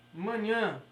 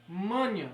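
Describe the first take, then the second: First: "manhã" stressed on the final nasal NHÃ; "manhã", oxytone, ending NHÃ stressed; stress on the last syllable. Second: "Manha" stressed on MA, MA-nha; "Manha", paroxytone, MA stressed; stress on the first syllable. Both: Shown as a demonstration. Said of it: "a sílaba tônica aqui".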